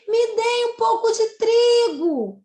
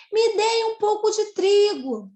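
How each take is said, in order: First: High, loud, slow pleading exclamation; emphatic exclamation. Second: High, loud plea repeated with emphasis; emphatic exclamation. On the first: Teacher showing students the emphasis of an exclamation, loud and high. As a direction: give the line full emphasis, begging. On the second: Teacher repeating the exclamation for students, loud and pleading. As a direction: stress it again as a cry for help. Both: Shown as a demonstration. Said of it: "Olha a ênfase que eu dei a essa frase".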